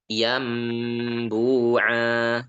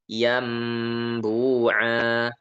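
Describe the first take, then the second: No difference in how they are said.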